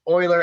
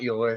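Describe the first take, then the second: First: The name begins with 'oy', like 'Oiler'. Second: The name does not begin with 'oy'. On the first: The speaker calls it right. "It's Euler, as in like the Houston Oilers" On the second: The speaker calls it wrong. "It's not Euler"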